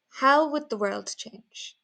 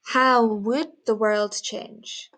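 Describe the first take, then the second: First: High "How", then "would" light and quick; would left unstressed. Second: "would" wrongly punched and drawn out, slow; stress on would. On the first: Teacher showing natural speech, "would" unstressed. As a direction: glide over "would", weight on the content words. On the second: Teacher showing what not to do, "would" stressed. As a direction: lean hard on "would" in a slow question. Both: Shown as a demonstration. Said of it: "we don't stress it when we speak".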